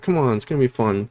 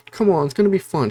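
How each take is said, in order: First: Said in the usual way. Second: Bubbly friend. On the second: Retold or imitated. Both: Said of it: "She's not a demon at this point".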